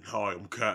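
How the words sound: It is said in a deep, grown man's voice.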